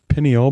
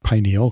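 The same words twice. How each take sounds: First: The first syllable sounds like pin. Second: The first syllable sounds like pine. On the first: "the other pronunciation is pineal" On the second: "I like pineal because it reminds me of a pine cone"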